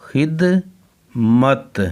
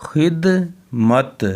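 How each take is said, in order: Both takes have the same delivery.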